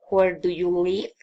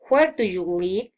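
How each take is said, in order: First: The voice falls at the end. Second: The voice rises at the end. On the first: "Special questions, filing intonation" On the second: "Friendly interest, politeness, raising intonation"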